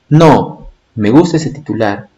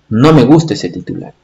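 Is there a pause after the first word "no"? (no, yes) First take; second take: yes; no. First: There is a pause right after the word no. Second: The words run on with no pause after no. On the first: The speaker does like the headline. "En esta primera expresión, si tú te das cuenta, está diciendo no, me gusta ese titular. Es decir, sí le gusta el titular" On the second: The speaker does not like the headline. "cuando no le pone"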